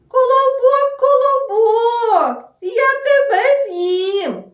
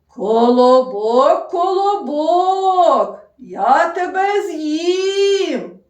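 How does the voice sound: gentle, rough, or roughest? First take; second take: gentle; roughest. First: The voice is gentle and calm. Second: The voice is rougher and loudest. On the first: A small gentle animal is speaking. "Ніжним, спокійним" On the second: A bear is speaking. "Більш грубішим, голоснішим"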